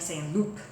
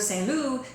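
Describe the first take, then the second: First: The final P is sounded hard. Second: The final P is silent. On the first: The speaker calls it wrong. "with a very hard P" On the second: The speaker calls it right. "instead of"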